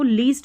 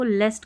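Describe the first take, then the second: First: The vowel is a long 'ee' sound. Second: The vowel is a short 'e' sound. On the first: The speaker calls it wrong. "इसको लीस्ट नहीं पढ़ना" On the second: The speaker calls it right. "इसको लेस्ट करके पढ़ेंगे"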